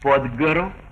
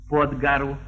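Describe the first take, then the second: First: The vowel in pod is a full o. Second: The vowel in pod sounds like a. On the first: The speaker calls it right. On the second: The speaker calls it wrong.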